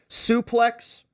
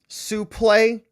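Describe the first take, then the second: First: The word is said the usual English way. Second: The word is said the French way. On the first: "pronounced suplex by almost all wrestling professionals and fans" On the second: "the French pronunciation"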